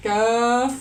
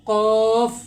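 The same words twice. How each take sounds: First: কাফ loud and crisp from the back of the tongue; a sharp light কাফ; light kaf demo. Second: A full-mouthed কফ; heavy qaf demo. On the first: (হালকা কাফ) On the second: (মোটা করে কফ) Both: Shown as a demonstration. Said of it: "এভাবে উচ্চারণ করতে হবে".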